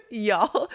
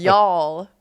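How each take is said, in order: First: A laughing Southern y'all; Y'all drawn out through a laugh. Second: Put-on Y'all said with a French accent; a French speaker trying Y'all; Y'all with a French lilt. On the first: Retold or imitated. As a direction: tease him with a Southern y'all. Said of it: "You did say y'all unironically". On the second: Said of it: "doesn't sound right with a French accent".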